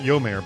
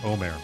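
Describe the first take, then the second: First: The name starts with a 'y' sound. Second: The name starts directly with a vowel. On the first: The speaker calls it wrong. "Not Yomer" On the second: The speaker calls it right. "but Omer"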